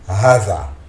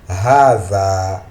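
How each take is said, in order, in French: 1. La première voyelle est brève. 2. La première voyelle est longue. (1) "Si nous lisons par rapport à l'apparence du mot... Mais on ne prononce pas ce mot comme ça" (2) "avec une prolongation au niveau du Ha"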